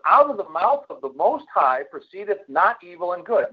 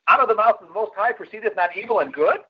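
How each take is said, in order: First: It is said as a falling statement. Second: It is said as a rising question.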